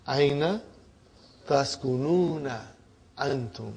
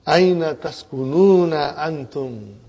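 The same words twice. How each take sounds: First: Each word set apart with long pauses, fading softer. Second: Said in the usual way. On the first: Shown as a demonstration. Teacher splits the Arabic question for students, word by word. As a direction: break the question into single words. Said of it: "what is the translation". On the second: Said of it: "Now he's asking another question".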